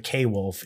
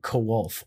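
First: The name begins with the letter name 'kay'. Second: The name begins with a short 'ko' sound. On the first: The speaker calls it wrong. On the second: The speaker calls it right.

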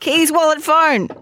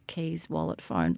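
First: It is said more loudly. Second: It is said at a normal, quieter volume.

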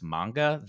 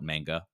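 First: The word is pronounced with a Japanese-style reading. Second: The word is pronounced with an English-style reading. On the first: The speaker calls it right. "I've heard it consistently as manga" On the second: The speaker calls it wrong. "I will be the first to admit I did call it manga"

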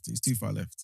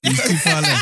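First: It is said at a quieter volume. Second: It is said at a louder volume.

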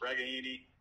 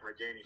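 First: The name is pronounced the Italian way. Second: The name is pronounced the English way. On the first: The speaker calls it right. "It's Regaini" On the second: The speaker calls it wrong. "we've all been saying Regaini for 5 years"

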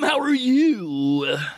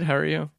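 First: It is said with lively enthusiasm. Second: It is said flatly, without energy.

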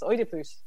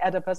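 First: The name is said with a Greek pronunciation. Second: The name is said with an American English pronunciation. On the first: The speaker calls it right. "in Greek it's Oedipus" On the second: The speaker calls it wrong. "in America they say Oedipus"

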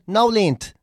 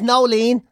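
First: The name ends with an added t sound. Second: The name ends plainly without a t sound. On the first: "they will pronounce it Nolent" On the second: "If your name is Nolene"

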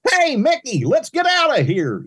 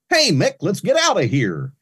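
First: It is called out loudly, as from far away. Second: It is said moderately loud, as across a room.

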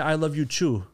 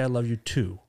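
First: The word too begins with a ch sound. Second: The word too begins with a t sound. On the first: The speaker calls it wrong. "You don't say" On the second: The speaker calls it right. "You say"

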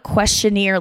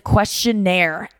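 First: The word ends with an 'eer' sound. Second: The word ends with an 'air' sound. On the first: The speaker calls it wrong. "It is not a questionnaire like a buccaneer or a pioneer" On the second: The speaker calls it right. "Like it's air with an E at the end"

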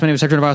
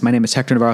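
First: It is spoken even more quickly. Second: It is spoken quickly. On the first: "one more time, but faster" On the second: "that was so fast"

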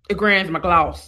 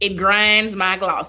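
First: It is said in the speaker's plain voice. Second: It is said with a put-on accent.

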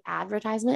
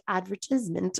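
First: It is said in a plain American accent. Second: It is said in a put-on British accent.

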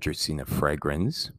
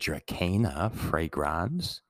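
First: The name is pronounced in a plain English way. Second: The name is pronounced in a Latin-sounding way.

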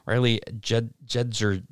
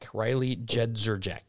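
First: The surname is said as two short syllables, Jedzer. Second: The surname is said with three syllables, Jed Zerjek. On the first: The speaker calls it wrong. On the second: The speaker calls it right.

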